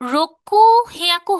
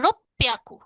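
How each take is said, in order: First: It is said as roku plus an h-sound hyaku. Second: It is said with a doubled p sound instead. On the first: The speaker calls it wrong. "রোকু হিয়াকু হওয়ার কথা" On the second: The speaker calls it right. "এটা রোপ্যাকু"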